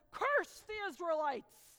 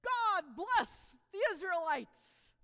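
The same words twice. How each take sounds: First: Loud, slow royal command; king's command. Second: Loud, slow proclamation; Balaam defiantly blesses Israel, loud and slow; loud blessing. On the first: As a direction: order it like a king. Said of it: "and he says". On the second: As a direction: proclaim it boldly. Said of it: "Balaam gets up there and says". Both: Acted.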